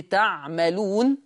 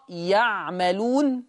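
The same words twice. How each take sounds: First: تعملون beginning with a clear ta; ta at the start of تعملون; Hafs reading. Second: يعملون beginning with a ya sound; Warsh reading. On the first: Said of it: "حفص يقرأ بالتاء". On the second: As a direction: start يعملون on ي, drawn out. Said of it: "ورش يقرأ يعملون بالياء". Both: Shown as a demonstration.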